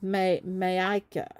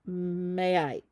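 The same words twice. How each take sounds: First: "Mayaika" tried slowly, ending in "-ka"; hesitant pronunciation attempt. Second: "Mayaik" drawn out, no final vowel; hesitant pronunciation attempt. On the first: Host unsure of winner's first name, hesitantly sounding out "Mayaika". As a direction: stall on "May-", then sound out "Mayaika". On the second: Host unsure of winner's first name, hesitantly trying "Mayaik". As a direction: try "Mayaik", stopping on the k. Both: Real, not acted. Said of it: "I might say the first name wrong".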